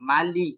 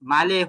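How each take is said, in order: First: The final vowel sounds like 'i'. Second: The final vowel sounds like 'e'. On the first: The speaker calls it right. "মালি, মালি কিন্নাস, এইভাবে নিয়ে আসতে হবে" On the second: The speaker calls it wrong. "মালে হয়ে যায়, মালে না"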